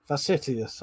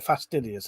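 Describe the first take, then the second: First: Fastidious said as f-a-s-i-t-i-o-u-s, dropping the d; stumbling over fastidious, drawn out slowly; failed attempt at a word. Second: Fastidious said cleanly, fas-TID-ious; careful pronunciation. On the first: Real, not acted. Streamer trying to read a chat word aloud, stumbling. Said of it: "I can't fucking say it". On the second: Shown as a demonstration. Streamer correcting himself, carefully sounding it out. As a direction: sound out fastidious properly, every syllable. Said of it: "fastidious is how you say it".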